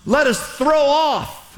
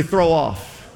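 First: Slow, raised punch on "throw off"; emphatic proclamation. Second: Said in the usual way. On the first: Real, not acted. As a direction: THROW OFF drawn out high and slow. Preacher proclaims the verse's key phrase.

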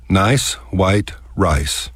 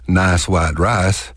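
First: Said in the usual way. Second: Slow Texas "nahs waht rahs"; strong Texas accent. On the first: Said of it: "how do you say these words?". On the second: Shown as a demonstration. Showing listeners how Texans talk, strong Texas accent. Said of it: "you have a strong Texas accent".

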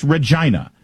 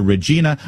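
First: Regina with a long EYE in the middle; alternative pronunciation. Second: Regina with a long EE in the middle; first pronunciation. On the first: Host querying the pronunciation, Regina said with EYE. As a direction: say Regina as ruh-JY-nuh. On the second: Host asking what to call her, Regina said with EE. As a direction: say Regina as reh-JEE-nuh. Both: Shown as a demonstration. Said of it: "or is it pronounced".

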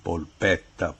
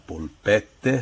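First: Polpetta closing on an open A; Italian final A. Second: Polpette closing on a full E, not I; Italian final E. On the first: Professor contrasts singular with plural, Italian final A. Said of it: "Se a palavra termina em A". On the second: Professor contrasts plural with singular, Italian final E. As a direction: land on a clear E in polpette. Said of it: "o plural é feito em E". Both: Shown as a demonstration.

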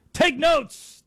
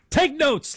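First: High, ringing order to take notes; mock command. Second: Mock command. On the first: Host taunting LeBron, Brady, Kiffin with a high call. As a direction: bark it up high. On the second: Mock preaching to star athletes.

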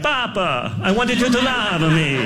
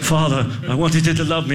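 First: High-pitched, hammed-up Italian accent. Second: Mock British accent of an actor in a Roman epic. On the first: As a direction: plead like a caricature Italian son, pitched high. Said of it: "You should be like". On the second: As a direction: play it as a dramatic British-accented son. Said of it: "Why are you doing a British accent?".

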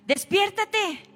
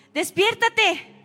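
First: Higher, urgent call to wake up; urgent wake-up plea. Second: "despiértate" stretched out slowly and pitched up; slow drawn-out plea. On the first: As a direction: rouse him, pitched up. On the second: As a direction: drag "despiértate" out slowly, begging. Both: Retold or imitated. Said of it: "ellos se llenaron de angustia".

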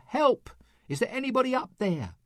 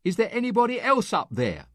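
First: High, fast panicked call upward; a dangling hiker calling out, voice pitched way up; desperate cry for help. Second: High, deadpan second try; hopeful punchline plea. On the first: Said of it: "the hiker called out". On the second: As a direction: ask for a different answer, voice way up. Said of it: "and then the response". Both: Acted.

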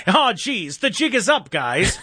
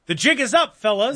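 First: Put-on high, hammy old-time crook; 1930s gangster voice. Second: Put-on high, hammy old-time mobster; 1930s gangster voice. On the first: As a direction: squeal it like a caught 1930s crook. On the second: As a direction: play a 1930s movie criminal. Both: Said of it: "like a nineteen thirties criminal".

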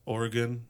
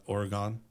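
First: Oregon with a weak last vowel; local pronunciation. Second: Oregon said as OR-uh-gahn; Oregon with a full "ah" in the last syllable; disliked pronunciation. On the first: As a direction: reduce the end of Oregon to "gun". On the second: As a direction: open the end of Oregon to "gone". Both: Shown as a demonstration. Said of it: "not Oregon".

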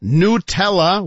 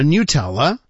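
First: Nutella slowly as NOO-tella, pure oo; pronunciation variant. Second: Nutella as nyoo-TELL-a, rising; pronunciation variant. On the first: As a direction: stretch Nutella out with a long oo, no glide. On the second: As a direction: say Nutella with a y glide, like new-TELL-a. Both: Shown as a demonstration. Host offers either name while telling story, pronunciation variant. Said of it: "whatever you want".

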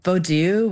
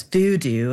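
First: Vodou said with an O in the first syllable; Vodou, first vowel like "go"; Haitian pronunciation Vodou. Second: Voodoo with OO in both syllables; voodoo, both vowels like "too"; popular pronunciation voodoo. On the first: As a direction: say Vodou as "VOH-doo", not "voodoo". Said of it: "is popularly understood as voodoo". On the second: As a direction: say voodoo as "VOO-doo", the popular way. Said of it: "popularly understood as voodoo". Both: Shown as a demonstration.

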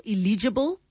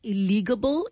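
First: "illegible" with j as in judge; "illegible" said correctly; correct pronunciation. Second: "illegible" said with a hard g, il-LIG-uh-bul; "illegible" hard g sound; mispronunciation. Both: Shown as a demonstration. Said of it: "voters are eligible, not".

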